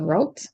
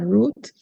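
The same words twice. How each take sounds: First: The word is said with an American pronunciation. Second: The word is said with an English pronunciation. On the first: "they use the American pronunciation" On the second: "the English pronunciation"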